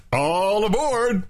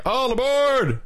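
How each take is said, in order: First: High, drawn-out boarding call; stretched-out high call; conductor's call, off the mark. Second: Very high boarding call; high-pitched train call; conductor's call, corrected. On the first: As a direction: call "all aboard" slowly, pitched up. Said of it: "that's not how you do it". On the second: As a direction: sing out a high "all aboard". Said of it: "It's like". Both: Shown as a demonstration.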